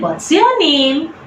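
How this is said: The voice rises at the end. It puts a small child at ease. The speaker calls it right. "use this rising tone"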